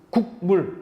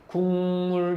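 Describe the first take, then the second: First: The first syllable ends in a clipped k stop. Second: The first syllable ends in a smooth ng nasal. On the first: The speaker calls it wrong. "끊기잖아" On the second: The speaker calls it right. "이렇게 자연스럽게 넘어가잖아"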